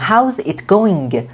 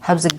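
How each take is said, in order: First: Each word is said separately, without linking. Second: The words are linked together into one flow. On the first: The speaker calls it wrong. "نمیگم" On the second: The speaker calls it right. "بعضی وقتا لینک میشه لغات به هم"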